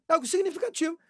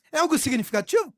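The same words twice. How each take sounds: First: "É algo significativo." stated with a falling end; confirming his own question; answering tune. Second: "É algo significativo?" quick with a rising end; asking the congregation; questioning tune. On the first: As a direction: answer it firmly. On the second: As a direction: toss it out as a question. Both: Shown as a demonstration.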